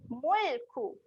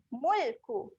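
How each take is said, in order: Both takes have the same delivery.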